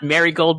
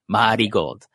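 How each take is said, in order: First: It is said with an English pronunciation. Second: It is said with a Japanese katakana pronunciation. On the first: The speaker calls it wrong. "So it's not Marigold" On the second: The speaker calls it right. "with like the kind of like the katakana pronunciation"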